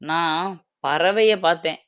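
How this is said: The stress is on the second word. It was a bird that was seen. "நான் பறவைன்ற இடத்துல stress குடுக்குறேன்"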